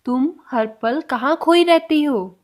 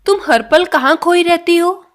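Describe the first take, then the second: First: Slow repeat. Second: Louder model question. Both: Shown as a demonstration. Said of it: "next sentence".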